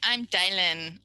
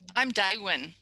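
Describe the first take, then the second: First: The name has an L sound in the middle. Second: The name has a W sound in the middle. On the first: "fronting and voicing" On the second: "what might happen to the l for a two-year-old? W?"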